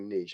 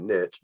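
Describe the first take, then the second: First: It is said the way the listeners say it. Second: It is said the Tennessee way.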